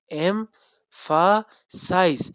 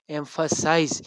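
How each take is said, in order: First: "emphasize" broken slowly into em, pha, size; syllable by syllable. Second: Said in the usual way. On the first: Shown as a demonstration. Teacher showing the syllables, "emphasize" said syllable by syllable. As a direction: say "emphasize" in three separate beats with clear pauses. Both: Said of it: "इसका मैंने syllable बनाए".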